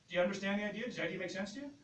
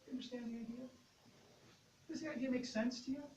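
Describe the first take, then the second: First: It sounds tense and pushy, like pressuring. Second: It sounds relaxed and casual, like chatting.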